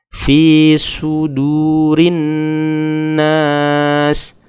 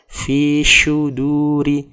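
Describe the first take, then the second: First: The s sound is a sharp whistling s. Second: The s sound is said like sh. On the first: The speaker calls it right. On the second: The speaker calls it wrong.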